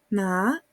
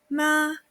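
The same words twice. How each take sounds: First: The pitch rises from low to high. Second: The pitch stays high and level. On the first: It means hemp. "el segundo ejemplo" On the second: It means mother. "Con primer tono"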